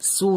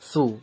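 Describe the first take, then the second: First: The first consonant is a plain s sound. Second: The first consonant is a th sound, tongue out. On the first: The speaker calls it wrong. "এটা কিন্তু সু নয়" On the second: The speaker calls it right. "একটু পার্থক্য আছে সাউন্ডের"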